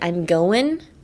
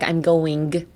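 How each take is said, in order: First: The final G sound is dropped. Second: The final G sound is fully pronounced. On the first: The speaker calls it right. "drop the G in the end" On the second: The speaker calls it wrong. "That's too much"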